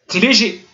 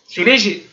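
The two takes are said the same way.

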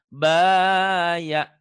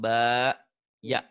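First: The two syllables run together without a pause. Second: There is a pause between the two syllables. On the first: The speaker calls it right. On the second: The speaker calls it wrong.

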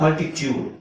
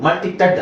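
First: The last syllable sounds like 'tyood'. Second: The last syllable sounds like 'ted'. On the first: The speaker calls it right. "ಇಲ್ಲಿ ಟ್ಯೂಡ್ ಅಂತ ಯಾಕೆ ಹೇಳ್ಬೇಕು" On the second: The speaker calls it wrong. "ಮಲ್ಟಿಟೆಡ್ ಅಲ್ಲ"

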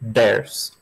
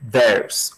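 First: It begins with a d sound. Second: It begins with the tongue against the teeth. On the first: "Ou então faz com som de D" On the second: "aquele famoso som de colocar a língua no dente de cima"

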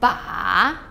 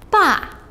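First: The pitch dips low, then rises. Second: The pitch falls sharply from high.

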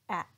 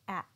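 First: The final T is cut off in the throat. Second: The same.

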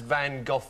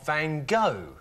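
First: The name is said the British way. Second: The name is said the American way.

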